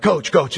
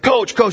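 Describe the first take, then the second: First: Said in the usual way. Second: Higher-pitched call for attention; insistent calling. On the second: Retold or imitated. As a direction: call out after being ignored. Ignored kid calls more insistently.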